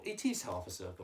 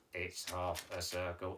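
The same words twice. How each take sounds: First: "is" leaned on in agreement; confirming, with weight on "is"; stress on "is". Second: Low, soft monotone puppet; puppet Mike's voice. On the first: Real, not acted. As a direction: lean lightly on the word "is". Teacher replies as herself or himself. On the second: Pretend. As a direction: keep it low on one level note. Teacher voices puppet Mike.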